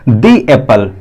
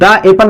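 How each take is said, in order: First: 'The' is said with a long 'ee' vowel. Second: 'The' is said with a short 'uh' vowel. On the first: The speaker calls it right. "क्या पढ़ेंगे इसको, दी एप्पल" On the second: The speaker calls it wrong. "दा एप्पल नहीं पढ़ेंगे"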